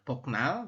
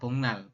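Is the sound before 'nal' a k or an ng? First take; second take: k; ng. First: A k sound comes before nal. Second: An ng sound comes before nal. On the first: "ini tulisannya Boknal" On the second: "tapi kita membacanya Bongnal"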